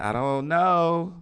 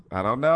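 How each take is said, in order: First: Slow, drawn-out unsure "know"; unsure drawl. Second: Said in the usual way. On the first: Retold or imitated. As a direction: stretch out "I don't know" in doubt, higher. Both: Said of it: "sometimes you be like".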